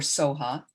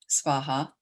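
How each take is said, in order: First: No 'v' sound is heard after the 's'. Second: A 'v' sound is heard after the 's'. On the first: "the V can be silent" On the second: "S V A H A, svaha"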